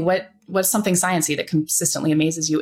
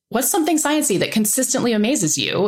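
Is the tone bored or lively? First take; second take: bored; lively. First: It is said in a flat, bored tone. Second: It is said in a lively, engaged tone.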